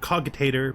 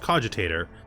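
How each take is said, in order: First: The first syllable sounds like the word cog. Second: The first syllable has a soft g sound. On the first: It evokes cogs, the faction's symbol. "I pronounce it cogitator because I think that it makes more sense" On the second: This is the standard pronunciation. "I know the word is cogitator"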